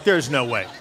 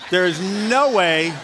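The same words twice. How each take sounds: First: Said in the usual way. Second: NO stretched long and loud; drawn-out disbelief. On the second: Retold or imitated. Pastor reacting to hearing his name, stretching "no" in disbelief. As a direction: lean hard and slow on "no", louder. Retold disbelief, repeated with emphasis.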